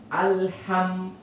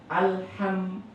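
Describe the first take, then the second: The two takes are said the same way.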